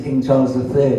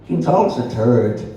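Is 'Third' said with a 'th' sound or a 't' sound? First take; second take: th sound; t sound. First: It has a standard 'th' sound in 'Third'. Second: It has an Irish 't' sound, like 'turd'.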